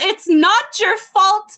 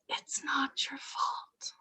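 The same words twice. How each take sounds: First: The phrase is said in a loud, strong voice. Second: The phrase is whispered very softly. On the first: The reassurance is offered with conviction. "Louder still" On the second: The reassurance is offered timidly. "I whisper to you, ... only under my cowardly breath"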